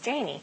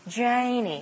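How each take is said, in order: First: The name is said plainly, without a drawl. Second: The name is said with a drawn-out drawl. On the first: Listeners mishear the name as a different name. The speaker calls it wrong. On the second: Listeners understand the name correctly. The speaker calls it right.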